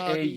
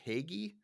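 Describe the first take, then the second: First: The name is said like 'hoagie'. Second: The name is said like 'Hagee'. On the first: The speaker calls it right. "it sounds more like hoagie, but with a ha at the end" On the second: The speaker calls it wrong. "which I called it like Hagee"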